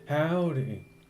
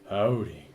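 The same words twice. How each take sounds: First: It is said in a normal voice. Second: It is said in a deep voice.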